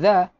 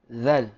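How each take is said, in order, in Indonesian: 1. Namanya berakhir dengan vokal, tanpa l. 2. Namanya berakhir dengan bunyi l yang jelas. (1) "Bukan za"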